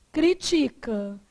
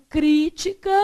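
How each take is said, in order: First: "Critica" stressed on TI, slow; stress on second syllable. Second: "crítica" stressed on CRÍ; stress on first syllable. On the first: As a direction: say "Critica" as cri-TI-ca, slowly. (tônica em TI: "Critica") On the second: (tônica em CRÍ: "crítica") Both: Shown as a demonstration. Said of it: "dependendo da pronúncia da palavra".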